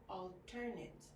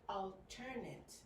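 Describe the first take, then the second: The two takes are said the same way.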